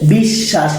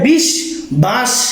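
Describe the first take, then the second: First: The 'sh' sound is doubled, with no 'b'. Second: A 'b' sound is heard after 'bish'. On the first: The speaker calls it right. "বিশ্বাস কেন হলো" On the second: The speaker calls it wrong. "বিশ বাস উচ্চারিত না হয়ে"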